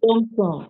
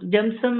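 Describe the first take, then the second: First: The name is said with long 'o' vowels. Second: The name is said with short 'u'-like vowels. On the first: This is the usual way to say the name. "Correct" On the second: Someone else says the name this way. "ಅವ್ರು ಬೇರೆ ರೀತಿ pronounce ಮಾಡ್ತಾರೆ"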